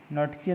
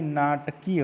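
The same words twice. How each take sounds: First: नटकीय with short "nat"; quick nat-keey for नटकीय; wrong form. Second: नाटकीय with long "naat"; slow naat-keey for नाटकीय; correct form. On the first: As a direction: keep the first vowel of नटकीय short. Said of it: "नहीं". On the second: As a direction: stretch the first vowel of नाटकीय. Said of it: "होता है". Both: Shown as a demonstration.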